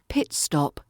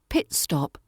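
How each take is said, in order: First: The first vowel is short and crisp. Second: The first vowel is short and crisp.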